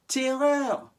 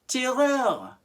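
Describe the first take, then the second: Both takes have the same delivery.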